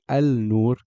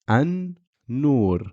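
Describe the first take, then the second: First: An 'l' sound is pronounced before the n. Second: The 'l' is skipped and the n is doubled. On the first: The speaker calls it wrong. "I did not say al-nur" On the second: The speaker calls it right. "I went straight from the aleph, a, to the noon"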